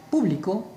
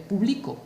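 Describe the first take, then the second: First: Público said as PÚ-bli-co; stress on first syllable. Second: Público said as pu-BLI-co; stress on middle syllable. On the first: Teacher showing one reading, público stressed on PÚ. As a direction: hit PÚ at the start of público. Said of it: "algunas personas van a leer". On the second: Teacher showing another reading, público as pu-BLI-co. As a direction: put the weight of público on BLI. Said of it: "de manera correcta, van a leer". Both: Shown as a demonstration.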